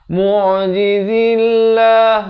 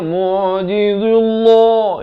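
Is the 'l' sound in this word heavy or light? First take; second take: light; heavy. First: The l sound is light and thin. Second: The l sound is heavy and thick. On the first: The speaker calls it right. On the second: The speaker calls it wrong. "itu tebal, salah"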